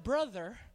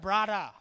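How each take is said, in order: First: The word has a standard English pronunciation. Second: The word has an island pidgin pronunciation. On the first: "you're not known as a brother" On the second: "You're known as a brada"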